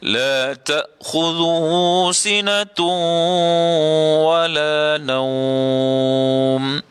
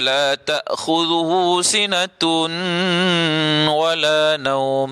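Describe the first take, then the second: First: The n merges into wala with held nasal hum. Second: The n is kept separate before wala. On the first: The speaker calls it right. "dengung dekat situ... Mesti cukup dua harakat" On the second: The speaker calls it wrong. "Tidak ada idgham"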